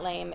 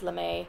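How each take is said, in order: First: The word is said as one syllable. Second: The word is said as two syllables. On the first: The speaker calls it wrong. "It's not lame" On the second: The speaker calls it right. "it's lame"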